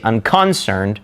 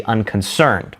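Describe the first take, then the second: First: Unconcerned wrongly said un-CON-cerned; stress on middle syllable. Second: Unconcerned said un-con-CERNED; stress on last syllable. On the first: Teacher showing what we don't say, un-CON-cerned stressed mid-word. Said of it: "We don't say". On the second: Teacher showing what we say, un-con-CERNED stressed at end. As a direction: keep "uncon" light, land on "cerned". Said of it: "we say". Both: Shown as a demonstration.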